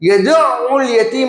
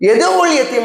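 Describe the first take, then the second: First: The middle consonant is doubled and pressed hard. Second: The middle consonant is single and not pressed. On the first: He drives the orphan away. The speaker calls it right. "என்ற அழுத்தினால் அனாதையை விரட்டுகின்றார் பொருள்" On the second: He invites the orphan to a feast. The speaker calls it wrong. "என்றா அனாதைக்கு விருந்தளிக்கிறார் பொருள்"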